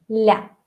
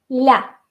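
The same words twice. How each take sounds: First: The L is soft and palatalized. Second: The same.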